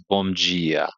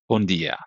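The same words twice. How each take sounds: First: It is said slowly and richly, with a full m. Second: It is said quickly and softly, m nearly n. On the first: "it's so rich. Oh, it takes its time" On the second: "You say it really fast, you say it soft"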